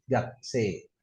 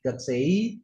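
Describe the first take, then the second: First: Gakse with a steady long e, no i; correct long e. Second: Gaksei with a clear final i, "gak-se-i"; wrong i ending. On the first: Teacher showing the right way, long e. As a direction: hold a pure e ending gakse. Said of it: "Yang benar". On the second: Teacher showing the worse mistake, audible final i. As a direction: end Gaksei on a sounded i. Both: Shown as a demonstration.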